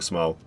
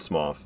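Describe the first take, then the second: First: The name ends on a plain vowel. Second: The name ends with an 'f' sound. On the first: "I'm saying Smo" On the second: "supposed to be pronounced Smoff"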